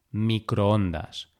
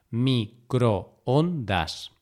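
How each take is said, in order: First: Said in the usual way. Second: Microondas broken slowly into mi, cro, on, das; syllable by syllable. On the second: Shown as a demonstration. Teacher dividing microondas to show the hiato, syllable by syllable. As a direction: say "microondas" as four separate syllables.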